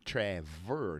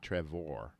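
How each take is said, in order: First: The last syllable sounds like 'er'. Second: The last syllable sounds like 'or'. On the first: The speaker calls it right. "Trevor actually sounds like E R" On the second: The speaker calls it wrong.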